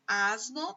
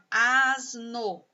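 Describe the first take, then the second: First: Said in the usual way. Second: "asno" drawn out in two syllables. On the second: Shown as a demonstration. Teacher showing two sounds to pupils, "asno" syllable by syllable. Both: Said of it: "Asno tem dois sons".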